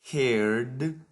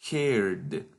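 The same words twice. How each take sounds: First: Heard with a lift at the end; rising list tone. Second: Heard dropping to close; falling final tone. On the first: Teacher modelling verb forms for students, rising tone. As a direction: rise on heard, not finished. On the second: Teacher modelling verb forms for students, falling tone. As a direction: let heard fall to finish. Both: Shown as a demonstration. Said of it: "Follow this pattern of pronunciation".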